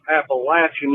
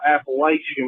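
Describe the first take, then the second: First: It is said the way locals pronounce it. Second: It is said the way outsiders pronounce it. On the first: The speaker calls it right. "that's Appalachian" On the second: The speaker calls it wrong. "not Appalachian, like some of y'all pronounce it"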